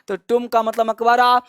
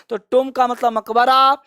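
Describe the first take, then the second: No difference in how they are said.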